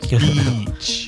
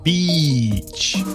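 First: The vowel is long but not exaggerated. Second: The vowel is stretched out very long. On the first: The speaker calls it right. "maybe not that long" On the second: The speaker calls it wrong. "Make it very long"

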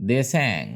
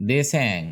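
No difference in how they are said.

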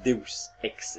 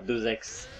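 First: The first word is not said as French 'deux'. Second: The first word is 'deux', linked to 'ex'. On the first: The speaker calls it right. "c'est Deus Ex" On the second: The speaker calls it wrong. "c'est pas deux ex"

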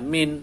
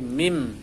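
First: The word ends with an n sound. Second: The word ends with a nasal m sound. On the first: The speaker calls it wrong. "tidak dibaca min" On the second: The speaker calls it right. "tapi mim. Bibirnya menutup, mim didengungkan"

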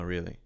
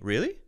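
First: It sounds flat and uninterested. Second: It sounds interested and engaged. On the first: The listener is not really interested. "It's sort of just like nodding, and it may even be a telegraphing that you are not interested" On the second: The listener wants to hear more. "That's sort of like saying, yeah, wow, okay, cool. I'm interested in what you're saying"

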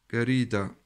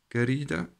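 The two takes are said the same way.

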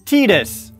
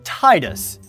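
First: The name is said the official in-game way. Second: The name is said the common English-speaker way. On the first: This is the canonical pronunciation. "But nope. Tidus" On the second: This is how most English-speaking players say it. "like every other single English-speaking person out there, has always pronounced it as Tidus"

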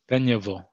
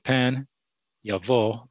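First: The two words are run together as one. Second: The two words are said separately. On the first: The speaker calls it right. "a ta'am between them that connects them" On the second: The speaker calls it wrong. "that's incorrect"

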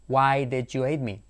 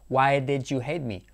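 First: 'Did you' is squeezed into one reduced syllable. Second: The same.

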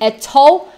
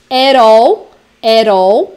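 First: It is said in a British accent. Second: It is said in an American accent. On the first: "para britânicos" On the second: "para americanos"

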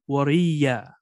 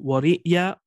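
First: The word has a y sound in the middle. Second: The word has a glottal stop in the middle. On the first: "or with a ya" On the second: "either with the hamza"

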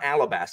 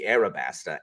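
First: The middle consonant is an L sound. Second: The middle consonant is an R sound. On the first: The speaker calls it wrong. "it's not Alabasta" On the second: The speaker calls it right. "it's more likely to be Arabasta"

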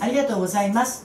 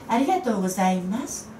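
First: The phrase ends crisply and firmly. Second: The phrase ending is softened and trails off. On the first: The speaker calls it wrong. "言い切るんじゃなくて" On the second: The speaker calls it right. "って抜く"

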